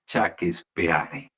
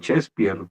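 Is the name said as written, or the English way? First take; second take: as written; English way. First: Each letter is sounded as written, Spanish-style. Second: It is said with English sounds, not letters. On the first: The reader did not know the English pronunciation. The speaker calls it wrong. "lo dijo tal como se escribe" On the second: This is how the name should naturally sound. The speaker calls it right. "como naturalmente debiera ser"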